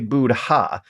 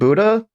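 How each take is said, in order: First: It is said with an audible h sound. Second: It is said without an audible h sound. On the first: "they make sure that the H in Buddha is is pronounceable and hearable" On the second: "Have we been pronouncing Buddha wrong this whole time?"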